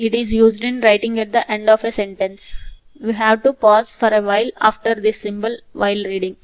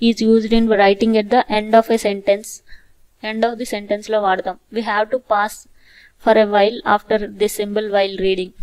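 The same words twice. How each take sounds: First: Very slow, steady reading; slow repeat. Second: Very slow, careful reading; slow dictation. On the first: Teacher repeating the full stop rule slowly. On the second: Teacher dictating the full stop rule, very slow. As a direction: read each word slowly. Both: Shown as a demonstration.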